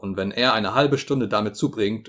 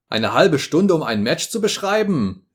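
First: Said in the usual way. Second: Higher, louder indignant cry; indignant outburst. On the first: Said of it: "Lord John's calm remark". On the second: A narrator's reading. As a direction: throw it back in outrage. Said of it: "rief ich ungehalten".

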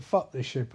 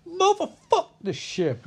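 First: Said in the usual way. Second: Very high, drawn-out comic holler; hammed-up mock outburst. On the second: [name] topping the crew's curses, high hammed-up holler. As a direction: stretch "Motherfuck" into a high mock cry. Third crewmate tops the others' curse.

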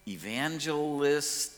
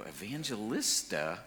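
First: Evangelist, said slowly, syllable by syllable; slow careful word. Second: Evangelista, with an extra -a on the end, slowly and puzzled; mispronounced word. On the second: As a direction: stretch out the wrong form Evangelista as a question. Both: Retold or imitated. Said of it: "didn't even know how to pronounce".

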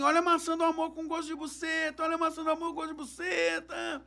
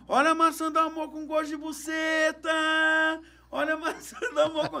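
First: Vendor's call. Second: Vendor's call taught. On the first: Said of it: "Do nada ele começou assim". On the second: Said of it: "fala assim". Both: Retold or imitated.

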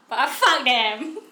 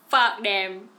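First: Fuck drawn out slowly, louder; emphatic fuck them. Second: Said in the usual way. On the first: Real, not acted. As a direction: lean hard and slow on fuck them. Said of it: "Not literally, but fuck them". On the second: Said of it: "Not literally".

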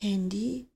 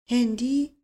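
First: Hushed, hollow disbelieving question, much softer; stunned, hollow near-murmur; hollow voice from a well. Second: Hollow, echoing repeat with a rising question; dazed echo of the word, rising at the end; hollow voice from a well. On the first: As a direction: ask it as if from the bottom of a well, barely voiced. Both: A narrator's reading.

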